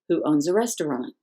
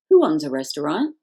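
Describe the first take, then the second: First: It has the tune of a statement clause. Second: It has the tune of a question. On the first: It is part of a larger sentence. The speaker calls it wrong. "That's how we say it when we put it with the main clause" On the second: It stands alone as a question. The speaker calls it right. "we have to use the intonation pattern for a question"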